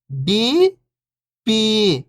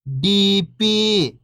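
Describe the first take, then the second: First: First syllable lifting, pause, second falling. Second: Whole word, level then falling at the end; syllables blended. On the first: Teacher breaking a word down for beginning readers, syllable by syllable. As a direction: sound out each syllable alone, long and separated. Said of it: "एक अक्षर का उच्चारण करके". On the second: Teacher showing beginners the joined word, syllables blended. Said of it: "इनको आपस में लाके पढ़ना है". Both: Shown as a demonstration.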